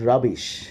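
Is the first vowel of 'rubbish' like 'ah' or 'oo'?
ah. The first vowel is an open 'ah' sound. "they will not pronounce rubbish"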